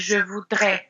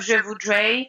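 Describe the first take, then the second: First: The final vowel is pure, French-style. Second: The final vowel glides, English-style.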